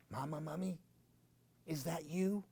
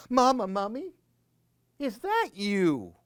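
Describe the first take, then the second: First: Soft, timid little voice; hushed nervous call for mama; scared soft call. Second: Put-on high, small child's call; high little voice calling for mama; little baby mummy. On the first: Acted. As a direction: call out quietly, afraid of the dark. Baby mummy calls in cave. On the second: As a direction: call out like a tiny lost child. Baby mummy calls into swamp.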